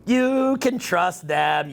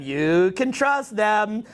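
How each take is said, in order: First: "You" leaned on, slow and syrupy; sarcastic stress. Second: "trust" leaned on, slow and syrupy; sarcastic stress. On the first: Telling viewers to trust groupthink, slow mocking stress on "You". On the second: Telling viewers to trust groupthink, slow mocking stress on "trust". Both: Pretend. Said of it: "I'm just kidding".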